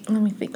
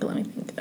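First: Said in the usual way. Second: Whispered to herself under her breath. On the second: Real, not acted. Friend whispers to herself while recalling a story. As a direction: breathe it to yourself while thinking. Thinking aloud, then repeats.

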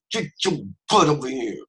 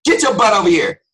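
First: Raised pitch, tight-jawed parental warning; mouth not moving. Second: Loud, high barked order; hammed-up angry parent shout; scolding parent. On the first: Acted. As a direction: order squeezed through a still mouth. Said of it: "when the mouth doesn't move". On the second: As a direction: yell at a child to come now. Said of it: "talking to kids like that".

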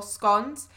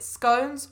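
First: "scones" with a short o, rhyming with dons; short-o pronunciation. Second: "scones" with a long o, rhyming with cones; long-o pronunciation. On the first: Teacher showing the regional debate, short-o "scones" as in gone. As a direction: say "scones" like "skonz". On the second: Teacher showing the regional debate, long-o "scones" as in cones. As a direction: say "scones" like "skohnz". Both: Shown as a demonstration. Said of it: "whether you pronounce it".

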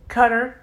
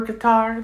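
First: "Qatar" said like "cutter"; front-stressed pronunciation. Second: "Qatar" said as kuh-TAR; end-stressed pronunciation. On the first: Learner comparing the train word to the country, said "cutter". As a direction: stress the first syllable of "Qatar": CUT-er. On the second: Learner comparing the train word to the country, said kuh-TAR. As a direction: stress the second syllable of "Qatar", open "tar". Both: Shown as a demonstration. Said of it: "it's almost like saying".

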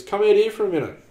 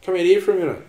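First: Loud high call, longer on out; dad calling mum a second time; calling out again. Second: Loud sung-out call to mum; dad hollering for mum. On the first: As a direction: sing it out across the yard louder. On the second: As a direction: call her out from the house, loud and high. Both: Retold or imitated. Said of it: "he sings out to me mum".

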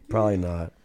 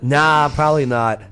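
First: Said in the usual way. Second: Laughing. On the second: Real, not acted. Laughs while answering teasing.

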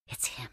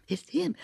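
First: Breathy hushed whisper; barely voiced, secret gossip. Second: High, rising excited repeat; excited patron. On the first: A patron whispering about the jester, hushed. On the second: Patron confirming to a friend, high and rising. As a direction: say "It's him." higher with a rising tune. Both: A narrator's reading. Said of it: "the patrons whispering".

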